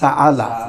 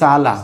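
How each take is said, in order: First: The word has a glottal catch between vowels. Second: The word is said without a glottal catch. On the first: "কিন্তু এখন বলতে হচ্ছে সাআলা" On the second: "যদি হামজা না থাকতো তুমি বলতে সালা"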